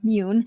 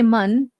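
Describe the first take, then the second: First: The vowel is long, like in 'moon'. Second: The vowel is short, like in 'bun'. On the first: The speaker calls it right. "or moon" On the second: The speaker calls it wrong. "not mun"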